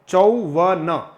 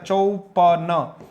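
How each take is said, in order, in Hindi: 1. बीच का व्यंजन v ध्वनि है। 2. बीच का व्यंजन p ध्वनि है। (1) "चौवन है" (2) "इसमें कई बार ऐसा बोला जाता है चौपन, तो मित्रों ये ठीक नहीं है"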